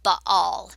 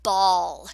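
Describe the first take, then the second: First: The name is said the Jewish way. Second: The name is said the common way. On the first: "sometimes the Jews would pronounce it Baal" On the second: "It's the Temple of Baal"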